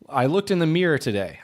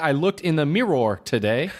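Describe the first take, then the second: First: Mirror is said almost like one syllable, meer. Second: Mirror is said as two full, separate syllables. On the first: The speaker calls it right. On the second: The speaker calls it wrong.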